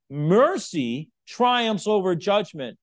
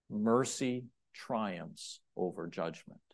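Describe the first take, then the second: First: Slow and louder, each word driven home; Mercy triumphs over judgment, slow, loud and forceful. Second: Slow, hushed reading of the verse; Mercy triumphs over judgment, said softly and slowly. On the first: Acted. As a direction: preach it with full force. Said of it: "he says it so forcefully". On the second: Shown as a demonstration. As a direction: let it land quietly and deliberately. Sermon key verse, read softly.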